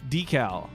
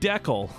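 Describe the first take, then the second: First: The word does not rhyme with freckle. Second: The word rhymes with freckle. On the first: This is the commonly accepted pronunciation. The speaker calls it wrong. "this word I know, to be clear, is pronounced decal" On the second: This is how the spelling suggests it should sound. The speaker calls it right. "it's spelled decal. Like like freckle"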